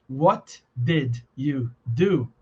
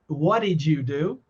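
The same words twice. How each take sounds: First: Each word is said separately and fully. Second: The words are run together and reduced. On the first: The speaker calls it wrong. "Ninguém fala assim" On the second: The speaker calls it right. "Parece com o primeiro"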